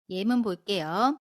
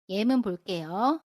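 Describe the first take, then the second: No difference in how they are said.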